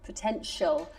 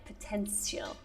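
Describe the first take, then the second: First: The middle consonant is a sh sound. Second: The middle consonant is a plain t sound. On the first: The speaker calls it right. "But it's shh" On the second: The speaker calls it wrong. "The T I, you say it like potential, no?"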